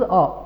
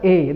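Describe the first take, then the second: First: The article is said with a short 'uh' vowel. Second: The article is said with an 'ay' vowel. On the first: The speaker calls it right. "This is अ" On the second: The speaker calls it wrong. "Never pronounce this as ए"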